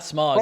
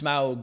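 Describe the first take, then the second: First: The vowel sounds like the word smog. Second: The vowel sounds like ow, as in German. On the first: The speaker calls it wrong. "it's not Smog" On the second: The speaker calls it right. "it's Smaug"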